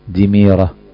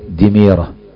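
The two takes are said the same way.

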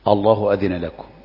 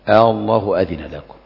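First: The opening vowel is short, without a drawn-out question vowel. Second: The opening vowel is lengthened with a drawn-out question vowel. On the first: It is read as a plain statement. The speaker calls it wrong. "ما ينفعش قل الله أذن لكم، لا" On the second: It is read as a question. The speaker calls it right. "حتى نحافظ على همزة الاستفهام"

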